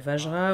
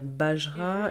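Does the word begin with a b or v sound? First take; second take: v; b. First: The word begins with a v sound. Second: The word begins with a b sound. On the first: This is how it is said in India. "en Inde, on va dire Vajra" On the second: This is how it is said in Nepal. "au Népal, on va dire Bajra"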